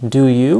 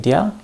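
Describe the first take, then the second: First: Both words are said fully and separately. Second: The words are squeezed into one short syllable. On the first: "We can reduce this" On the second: "We could also say dia"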